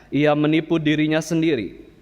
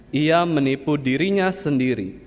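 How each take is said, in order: The two takes are said the same way.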